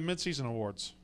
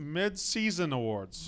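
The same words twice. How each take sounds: First: The word is said quickly and slurred together. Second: The word is said carefully with each syllable clear. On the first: The speaker calls it wrong. "you keep saying it so quick, it sounds like Mincy Awards" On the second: The speaker calls it right. "Enunciate. There you go"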